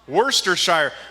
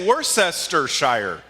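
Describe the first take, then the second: First: The word is shortened, skipping the spelled syllables. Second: Every spelled syllable of the word is said. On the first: "somebody told me you say Worcestershire" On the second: "It should say Worcestershire. That's that's how we spell it"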